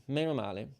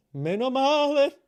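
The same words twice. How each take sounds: First: Said in the usual way. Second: High, loud, drawn-out relieved cry; exaggerated relief. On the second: Real, not acted. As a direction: stretch it out, hugely relieved. Relief said three times.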